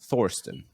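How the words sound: The name starts with a TH sound. "if you pronounce it in English"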